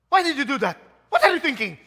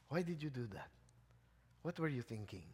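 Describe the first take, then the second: First: It is said tersely and harshly. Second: It is said gently and kindly.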